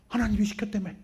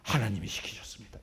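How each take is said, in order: First: Resentful accusation. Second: Pious claim. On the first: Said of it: "하나님 원망하고 도망가요". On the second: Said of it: "이 표현이 좀 그런가". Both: Retold or imitated.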